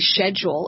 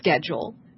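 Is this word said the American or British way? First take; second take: British; American. First: It is said with a British pronunciation. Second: It is said with an American pronunciation. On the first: "in the UK they say schedule" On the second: "instead of schedule"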